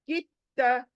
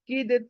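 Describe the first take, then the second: First: The d sound is silent, merged into t. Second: The d sound is pronounced before the t. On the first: The speaker calls it right. "दाल का कुछ काम नहीं, silent." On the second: The speaker calls it wrong. "ऐसे क्यों नहीं पढ़ रहे हम लोग?"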